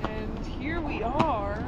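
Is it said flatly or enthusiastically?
enthusiastically. It is said with more enthusiasm.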